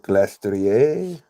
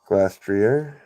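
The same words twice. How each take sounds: First: The name is said with a French-style pronunciation. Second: The name is said with plain English pronunciation.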